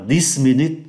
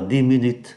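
First: The final consonant of dix is pronounced. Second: The final consonant of dix is silent. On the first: The speaker calls it wrong. "không đọc là this minute" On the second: The speaker calls it right. "mà người ta đọc là 10 minutes"

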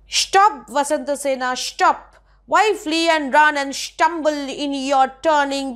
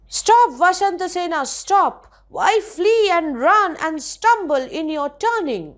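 First: The 's' sounds are said as 'sh'. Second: The 's' sounds are said as a plain 's'.

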